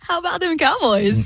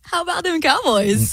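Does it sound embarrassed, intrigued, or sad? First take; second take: embarrassed; embarrassed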